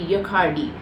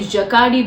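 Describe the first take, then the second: First: The J is said the French way. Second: The J is said as an English-style J. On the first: "in Paris in Europe it's it's basically" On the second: "J here we pronounce it as Ja"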